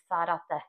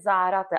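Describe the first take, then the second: First: It is said with a Spanish tongue sound. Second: It is said with a plain Czech z sound. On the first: The speaker calls it right. "ale ono je to nějak jako, že Sarate" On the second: The speaker calls it wrong. "On se tam píše, že Zárate"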